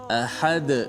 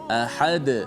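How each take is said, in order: No difference in how they are said.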